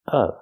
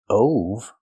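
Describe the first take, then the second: First: The vowel sounds like the one in 'cup'. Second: The vowel sounds like the one in 'no'. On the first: The speaker calls it right. "pronounced with the short uh sound like cup and up" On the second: The speaker calls it wrong. "Not o like no and go"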